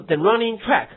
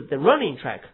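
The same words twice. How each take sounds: First: Track stressed, high and loud; wrong stress on track. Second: Running stressed, track light. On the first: Teacher showing the wrong reading, stress on track. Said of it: "不是". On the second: Teacher giving the right reading, stress on running. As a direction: lean on running. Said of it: "是". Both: Shown as a demonstration.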